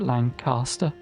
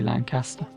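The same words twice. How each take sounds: First: It is pronounced the southern English way. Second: It is pronounced the way locals say it. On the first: The speaker's own southern pronunciation. "I'm from the south, so I would pronounce it Lancaster" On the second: How people from the town itself say it. "If you're from Lancaster, it's probably Lancaster"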